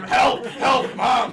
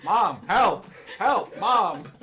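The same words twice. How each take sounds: First: High, loud mock shout for help; imitated yelling kid. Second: Loud but unpanicked mock call; imitated calm kid calling. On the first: Player replays the kid at the counter, imitated yelling. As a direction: yell for Mom like a kid in need. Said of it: "he was just yelling until she got there". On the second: Kid by the counter wants Mom, imitated calm calling. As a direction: call for Mom in measured, sing-out words. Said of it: "in a very calm voice".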